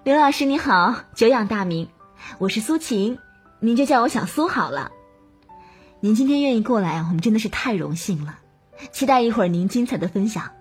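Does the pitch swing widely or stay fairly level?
fairly level. The pitch moves gently and stays fairly level.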